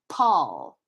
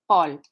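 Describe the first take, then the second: First: The P is released with a puff of air. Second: The P is released without a puff of air. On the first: "my trick to do aspiration correctly in English" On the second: "So now Paul is, in French"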